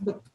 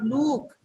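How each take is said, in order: First: The vowel sound is short. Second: The vowel sound is long. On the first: The speaker calls it right. "It is look. That is short vowel" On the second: The speaker calls it wrong. "it's not look"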